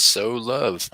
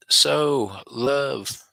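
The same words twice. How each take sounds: First: Said in the usual way. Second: "So, love" read higher and louder in a put-on voice; mock her message with a lightly put-on voice; reading chat in a voice. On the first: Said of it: "M J says". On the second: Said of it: "she says".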